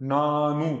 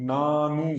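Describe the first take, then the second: No difference in how they are said.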